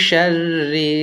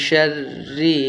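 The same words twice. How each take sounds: No difference in how they are said.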